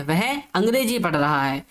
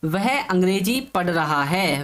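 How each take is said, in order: First: Said in the usual way. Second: Slow, each word set out for students; teacher reads the example sentence out slowly to the class; slow dictation. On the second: Shown as a demonstration. Slow dictation. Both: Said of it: "तो वाक्य है".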